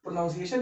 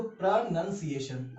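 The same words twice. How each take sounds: First: "प्रोनाउंसिएशन" said pro-NOUN-see-ay-shun; "प्रोनाउंसिएशन" with an "ow" in the second syllable; common mispronunciation. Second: "प्रोनाउंसिएशन" said slowly as pruh-NUN-see-ay-shun; slow "प्रोनाउंसिएशन" with a short "u" in the second syllable; corrected pronunciation. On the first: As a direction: put the "noun" of pronounce into "प्रोनाउंसिएशन". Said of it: "बहुत लोग प्रोनाउंसिएशन पढ़ते हैं". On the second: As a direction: say "nun", never "noun", inside "प्रोनाउंसिएशन". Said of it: "यहाँ पे ओयू है लेकिन यहाँ पे यू". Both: Shown as a demonstration.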